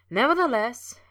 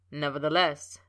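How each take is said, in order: First: High, loud teasing echo of the word; mocking echo. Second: Said in the usual way. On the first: A narrator's reading. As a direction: echo the word back playfully, mimicking. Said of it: "he echoed". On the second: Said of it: "Snape began".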